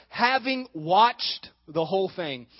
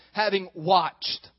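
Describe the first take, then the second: First: Slow, weighty "having watched"; stress on having watched. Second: "having watched" slow and heavy; stress on having watched. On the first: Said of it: "hear that one word, having watched". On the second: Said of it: "I want you to hear that one word". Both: Shown as a demonstration.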